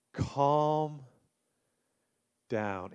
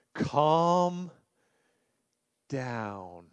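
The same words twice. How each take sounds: First: Calm said softer, down sinking lower and much softer; an even gentler Calm down. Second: Calm down. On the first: Pastor repeating the advice to anxious listeners, softer still. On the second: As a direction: ease the word Calm down gently. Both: Shown as a demonstration. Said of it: "do you need to hear that".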